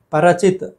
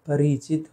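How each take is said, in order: First: परचित said "para-chit"; missing i. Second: परिचित with "ri" in the middle; softer "pa-ri-chit" for परिचित; clear ri. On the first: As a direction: drop the रि vowel in परचित. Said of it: "परचित गलत है". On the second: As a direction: sound the short i of परिचित. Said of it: "होना चाहिए". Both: Shown as a demonstration.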